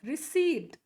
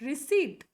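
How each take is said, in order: The two takes are said the same way.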